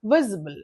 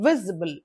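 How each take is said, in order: First: The stress is on the first syllable. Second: The stress is on the first syllable.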